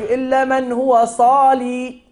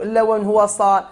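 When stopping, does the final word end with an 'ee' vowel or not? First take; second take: with ee; without ee. First: The last word ends with a long 'ee' sound. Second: The last word ends without a long 'ee' sound. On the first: The stop follows the word's original form. "فمن وقف بالياء على الاصل" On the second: The stop follows the written form. "ومن وقف بدون ياء على الرسم"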